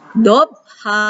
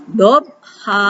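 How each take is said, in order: The two takes are said the same way.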